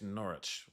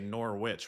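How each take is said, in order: First: British accent, with the w left silent. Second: American accent, with the w clearly pronounced.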